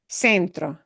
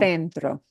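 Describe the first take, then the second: First: The first consonant is an s sound. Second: The first consonant is a th sound. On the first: This is how it sounds in Latin America. "In Latin America" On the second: This is how it sounds in Spain. "In Spain"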